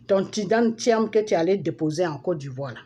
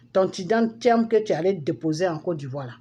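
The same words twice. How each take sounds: The two takes are said the same way.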